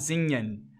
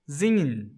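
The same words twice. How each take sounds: First: The final syllable is clearly pronounced. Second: The final syllable is swallowed, almost inaudible. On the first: "Ele não vai falar singen" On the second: "esse en é engolido"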